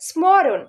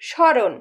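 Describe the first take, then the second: First: The word is said with an m sound. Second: The word is said with no m sound. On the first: The speaker calls it wrong. "ম ফলা যদি আমরা উচ্চারণ করতে যাই, তাহলে কি উচ্চারণ হবে স্মরণ" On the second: The speaker calls it right. "কিন্তু উচ্চারণ কি করছি স্মরণ"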